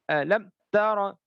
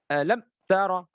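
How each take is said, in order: First: The m is cut off with an abrupt jerk. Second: The same.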